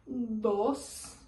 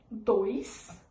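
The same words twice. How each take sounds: First: "Dos" in Spanish, pure short o, no glide; Spanish pronunciation. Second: "Dois" in Portuguese, with the oy glide; Portuguese pronunciation. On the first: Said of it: "em espanhol". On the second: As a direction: say "Dois" as in Brazil. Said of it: "em português". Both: Shown as a demonstration.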